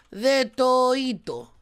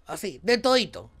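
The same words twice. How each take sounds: First: Slow stretched name reveal; drawn out. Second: Said in the usual way. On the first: Pretend. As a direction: draw the name out slowly. (nombre alargado, lento) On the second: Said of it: "repeats name plainly".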